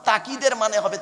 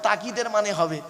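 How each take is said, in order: The two takes are said the same way.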